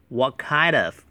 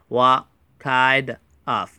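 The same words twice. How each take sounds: First: The words are run together smoothly and quickly. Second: The words are said separately and slowly. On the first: The speaker calls it right. "连读为What kind of" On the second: The speaker calls it wrong. "不要读成What kind of，读快一点哈"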